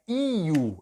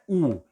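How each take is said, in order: First: A y-glide comes before the oo vowel. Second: A single plain oo vowel, no glide. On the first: The speaker calls it right. "é I-U. Eu tenho dois sons" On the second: The speaker calls it wrong. "não é U"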